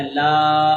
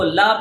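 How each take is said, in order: First: لا held long on a low, level aa; long vowel. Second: لا with a short a; wrongly shortened. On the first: Teacher corrects the mistake, لا drawn out. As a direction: stretch لا out. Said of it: "اس کو پڑھنا ہے". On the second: Teacher shows a common mistake, لا kept short. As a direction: cut لا short without stretching. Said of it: "غلط پڑھتے ہیں". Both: Shown as a demonstration.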